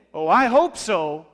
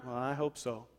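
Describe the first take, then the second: First: Louder, slow, drawn-out "Oh, I hope so"; sarcastic hope. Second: Soft, doubtful mutter of "hope"; sarcastic hope. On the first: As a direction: stretch it out, dripping with doubt. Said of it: "it's how you say it". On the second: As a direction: mumble it like you don't believe it. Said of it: "That's sarcastic hope". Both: Shown as a demonstration.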